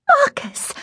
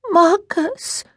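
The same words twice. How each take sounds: First: Put-on very high, delighted child's call; gleeful little-girl squeal of a name; happy call. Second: Put-on high, pleading child's voice; pitiful little-girl whimper of a name; pathetic little voice. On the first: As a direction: call out happily to a friend. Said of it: "Honoria called out happily". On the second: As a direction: plead pitifully, rising at the end. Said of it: "in a voice so pathetic". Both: A narrator's reading.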